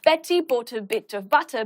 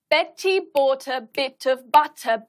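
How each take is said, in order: First: It is said at a moderate pace. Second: It is said at the slowest pace. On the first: "each time we're going to get faster" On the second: "each time we're going to get faster"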